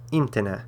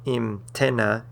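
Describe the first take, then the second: First: Imtena as EEM-teh-na, first syllable stressed. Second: Imtena wrongly stressed as eem-TEN-na; stress on middle syllable. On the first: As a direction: punch the opening EEM of imtena, let the rest fall. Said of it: "that's where the stress falls". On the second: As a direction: slowly lean on the TEN of imtena. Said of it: "So it's not". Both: Shown as a demonstration.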